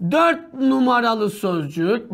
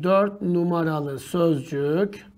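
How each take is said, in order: First: Drawn-out dictating voice; slow dictating the option; slow dictation pace. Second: Slow, softer dictating voice; quietly dictating the option; slow quiet dictation. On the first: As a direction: spell it out slowly while writing. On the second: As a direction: read it slowly while writing. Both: Shown as a demonstration. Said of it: "bak yazıyorum".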